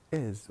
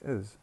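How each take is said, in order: First: The word has a full, strong vowel. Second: The word is said in its weak form. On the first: The speaker calls it wrong. "We don't say is" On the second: The speaker calls it right. "we say is"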